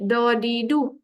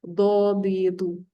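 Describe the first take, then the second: First: "Dadidu" with a plain d from the tongue tip; ordinary Malay d on each slow syllable. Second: "Dadidu" slow, thick d from the side of the tongue; heavy Arabic dad, drawn out on each syllable; slightly lisped dad. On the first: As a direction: put the front tongue on the palate for "Dadidu". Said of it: "itu bahasa Melayu". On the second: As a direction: press tongue edge to molars on "Dadidu". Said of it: "dia akan jadi sedikit pelat". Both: Shown as a demonstration.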